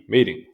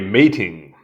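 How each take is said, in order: First: The t is soft and sounds like d. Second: The t is a strong, aspirated t sound. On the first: "we don't aspirate the T in that context so well, and it sounds like a D" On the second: "I said that with so much emphasis on the T"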